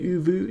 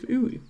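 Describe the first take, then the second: First: The middle consonant is a V sound. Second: The middle consonant is a W sound. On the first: The speaker calls it wrong. "they tend to say W with a V sound" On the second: The speaker calls it right. "instead of Uwu"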